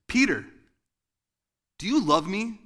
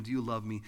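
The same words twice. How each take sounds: First: Much higher and louder, an accusing shout; accusing angry father. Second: Loving invitation. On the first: Angry God accusing Peter by the fire, loud and harsh. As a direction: jab it like a finger in the chest. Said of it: "you would hear it like this". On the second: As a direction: ask it tenderly, as pure love. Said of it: "saying, inviting him". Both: Shown as a demonstration.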